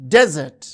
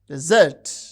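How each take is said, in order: First: The stress is on the first syllable. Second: The stress is on the second syllable. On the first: It is used as a noun. "the stress is on the first syllable when the word is used as noun or adjective" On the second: It is used as a verb. "the stress is on the second syllable when the word functions as a verb"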